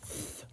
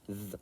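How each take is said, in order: First: The th sound is hissed without voicing. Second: The th sound is buzzed with voicing. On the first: "the unvoiced is the sound that sounds harsher" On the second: "The voiced sound is the sound that sounds sort of more electric"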